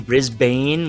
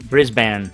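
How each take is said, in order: First: The last syllable is said with an E sound. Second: The last syllable is said without an E sound. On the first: The speaker calls it wrong. "I say Brisbane with an E" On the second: The speaker calls it right. "It's actually Brisbane"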